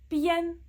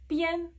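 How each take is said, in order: Both takes have the same delivery.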